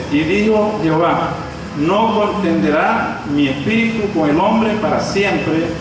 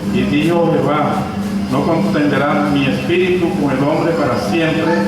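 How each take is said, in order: The two takes are said the same way.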